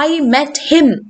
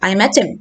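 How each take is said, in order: First: The word 'him' is said in its full form. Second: The word 'him' is reduced to a weak 'im'. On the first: "You don't have to say like that" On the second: "Speedy പറയുമ്പോൾ im എന്ന് കേൾക്കും"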